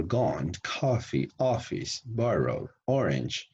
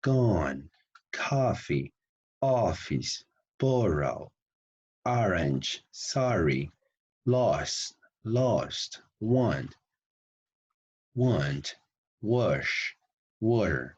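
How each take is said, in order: First: "coffee" and "office" with an open American "ah", pitched up; each word said with the American "ah" sound, as in "father"; word-by-word American "ah" demo. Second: Each word with an open "ah": "gone" as "gahn", "wash" as "wahsh"; slow teacher drill of the American "ah" vowel; American ah sound. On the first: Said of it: "Look, for example". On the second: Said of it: "It's like, it's like, ah". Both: Shown as a demonstration.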